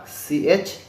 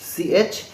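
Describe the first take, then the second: No difference in how they are said.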